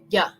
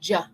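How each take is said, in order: First: It begins with a soft Y sound. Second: It begins with a hard J sound. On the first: The speaker calls it right. "We want to say ya, ya, from the back of our throat" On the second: The speaker calls it wrong. "We don't want to say ja"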